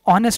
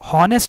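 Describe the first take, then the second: First: The word starts with a vowel sound. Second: The word starts with an h sound. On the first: The speaker calls it right. "ऑनेस्ट बोलते हैं" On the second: The speaker calls it wrong. "हॉनेस्ट नहीं बोलते इसको"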